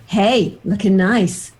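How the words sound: It sounds intense and creepy.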